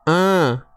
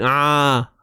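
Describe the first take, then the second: First: The sound is made through the nose. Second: The sound comes out wide open, unconstricted. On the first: "Tak mau bunyi a. ... tu bunyi hidung" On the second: "Kalau tak sempit, ... dia terbuka lah, terbuka luas"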